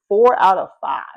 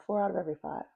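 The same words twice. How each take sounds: First: "Four out of five" punched loud; firm, louder stress on "Four out of five"; emphatic reiteration. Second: Said in the usual way. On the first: Real, not acted. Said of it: "'cause we gotta reiterate". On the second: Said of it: "I'm gonna keep saying that".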